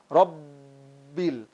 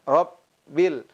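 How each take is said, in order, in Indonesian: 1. Bunyi B ditekan, digembungkan, dan dipanjangkan. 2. Bunyi B pendek dan ringan. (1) "menggembung... ada suara memanjang... begitu ditekan" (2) "huruf yang ringan, muraqaqah"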